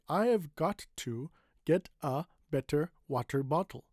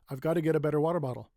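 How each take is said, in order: First: The sentence is spoken slowly. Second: The sentence is spoken quickly. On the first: "let's say it slowly" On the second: "If you can say it really quickly"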